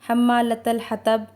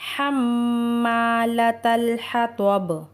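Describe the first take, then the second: First: It is said quickly with the nasal cut short. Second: The nasal m is held for two counts. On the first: The speaker calls it wrong. "हम अक्सर जल्दी में हम्मालतल हतब पढ़ देते हैं" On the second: The speaker calls it right. "लेकिन सही तरीका क्या है?"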